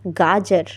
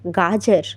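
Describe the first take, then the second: Both takes have the same delivery.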